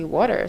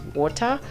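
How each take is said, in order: First: The word is said in a North American accent. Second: The word is said in a British accent. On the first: "North America where they say water" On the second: "British English, which is water"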